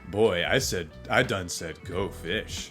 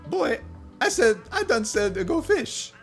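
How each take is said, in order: First: It is said in a smooth, suave voice. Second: It is said in an ordinary, unsmooth voice. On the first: The speaker calls it right. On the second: The speaker calls it wrong.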